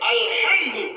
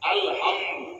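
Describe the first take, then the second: First: The h is a strained sound from deep in the throat. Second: The h is a light, plain breathy sound. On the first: All praise belongs to God. The speaker calls it right. "এই গলার ভিতর থেকে আলহামদু" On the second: All death belongs to God. The speaker calls it wrong. "যখন আমি হ দিয়ে উচ্চারণ করব, ইংরেজি ভাষাকে মাধ্যম করে এইচ"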